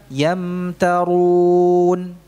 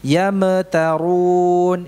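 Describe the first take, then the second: First: Very slow Yamtarun, m joined without bounce; smooth mim, correct. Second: Very slow Yamtarun with a bounce on the m; bounced mim, wrong. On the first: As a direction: glide through the m of Yamtarun. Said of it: "Yang benar gimana?". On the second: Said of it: "Ini salah". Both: Shown as a demonstration.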